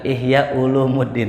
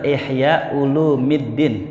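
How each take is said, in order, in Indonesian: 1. Kata kedua dibaca Ulumuddin. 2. Kata kedua dibaca Ulumiddin. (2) "Yang benar"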